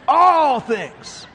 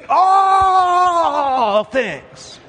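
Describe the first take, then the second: First: Higher, still raised repeat, a step down from the shout; preaching emphasis. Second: High, loud shouted emphasis on All; preaching shout. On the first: Preacher repeating the phrase to the church, raised emphasis. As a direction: echo it with less force. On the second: Preacher driving home to the church, shouted emphasis. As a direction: belt it out to the congregation. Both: Real, not acted.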